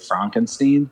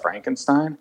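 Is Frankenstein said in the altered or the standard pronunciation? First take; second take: altered; standard. First: The name is said with an altered, unusual pronunciation. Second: The name is said with its ordinary standard pronunciation. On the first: "I taught them all to say Frankenstein" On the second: "instead of Frankenstein"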